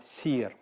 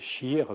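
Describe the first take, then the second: First: The word begins with an 's' sound. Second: The word begins with an 'sh' sound. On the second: This is how Moroccan Arabic speakers say it.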